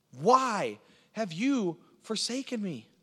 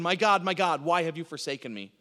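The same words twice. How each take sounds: First: High, slow, drawn-out plea; crying out in anguish. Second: Brisk, declarative question, falling at the end; preacher's rhetorical quote. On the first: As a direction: stretch each word into a pained cry to God. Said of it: "David was crying out in fear and in pain". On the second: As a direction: ask it as a point made, without anguish. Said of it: "he's asking it rhetorically". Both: Acted.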